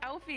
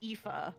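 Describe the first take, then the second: First: The name is said like 'Alfie', with an L. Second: The name is said like 'Ee-fa', without an L. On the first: The speaker calls it wrong. "I thought it was pronounced Alfie because that's how it looks" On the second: The speaker calls it right. "supposedly pronounced Aoife"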